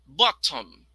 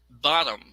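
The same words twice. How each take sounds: First: The middle t is a clear t. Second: The middle t sounds like a quick d. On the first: "the first version is the British" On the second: "the next one is American"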